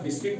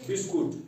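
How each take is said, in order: First: The u is silent in the second syllable. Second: The u is sounded in the second syllable. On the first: The speaker calls it right. "ये यहाँ silent रहता है, इसलिए ये यहाँ बिस्किट पढ़ा जाता है" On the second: The speaker calls it wrong. "बताते हैं बिस्कुट ... ऐसा नहीं है"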